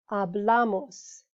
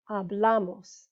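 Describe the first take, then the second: First: Hablamos drawn out slowly, leaning on the syllable bla; slow stress demo. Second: Said in the usual way. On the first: Shown as a demonstration. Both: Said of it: "So second to last syllable".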